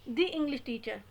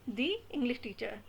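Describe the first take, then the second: The two takes are said the same way.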